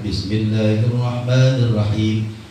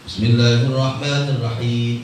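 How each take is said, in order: First: It is said slowly and drawn out. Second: It is said quickly and hurriedly.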